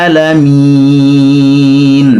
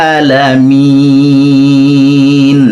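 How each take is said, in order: Both takes have the same delivery.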